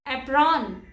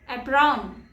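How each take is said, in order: No difference in how they are said.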